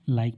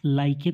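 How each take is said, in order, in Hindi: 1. शब्द k पर खत्म होता है, उसके बाद कोई स्वर नहीं। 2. k के बाद अंतिम स्वर-ध्वनि बोली जाती है। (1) "लाइक पढ़ते हैं" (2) "तो यहाँ पर इसे हम लाइके तो नहीं पढ़ते"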